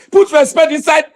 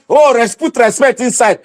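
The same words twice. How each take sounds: First: Mocking shout. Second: Lightly voiced mock caution; a hint of a scolding elder; quoting timid people. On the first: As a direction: fling the phrase back with scorn. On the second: Ranting at viewers, quoting timid critics in a mild mock voice. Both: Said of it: "they will not be saying".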